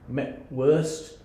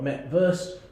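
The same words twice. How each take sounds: First: It is said with a fully English pronunciation. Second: It is said with a partly English pronunciation. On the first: The word is treated as a naturalised English word. "sort of decline of decreasing naturalisation there" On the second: The word is treated as partly naturalised. "sort of decline of decreasing naturalisation there"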